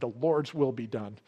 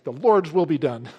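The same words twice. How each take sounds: First: It is said in a resigned, unenthusiastic tone. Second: It is said in an enthusiastic, upbeat tone.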